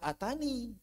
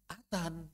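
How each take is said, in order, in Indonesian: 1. Kata itu berakhir dengan vokal 'ee' yang ditambahkan di akhir. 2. Kata itu berakhir dengan n, tanpa vokal akhir. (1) "Walaupun enggak ada ya-nya, di sini dibaca atani" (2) "Enggak ada ya-nya"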